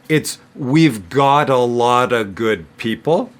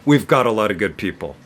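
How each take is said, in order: First: The sentence is spoken slowly. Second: The sentence is spoken very fast. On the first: "if I say it slowly" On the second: "if I say it really fast"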